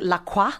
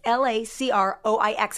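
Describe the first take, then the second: First: It sounds like the fashion designer's name. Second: It does not sound like the designer's name. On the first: The speaker calls it wrong. "I used to pronounce it LaCroix, like the designer, but that would be wrong" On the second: The speaker calls it right. "It's LACROIX"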